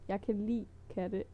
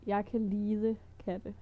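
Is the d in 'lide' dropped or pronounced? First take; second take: dropped; pronounced. First: The word lide is said as short 'li'. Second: The word lide is said with its full d. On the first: The speaker calls it right. "Instead of lide, you just say li" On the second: The speaker calls it wrong. "it sounds kind of weird to say lide when it's to like"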